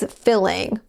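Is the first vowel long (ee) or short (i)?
short. The first vowel is a short i sound.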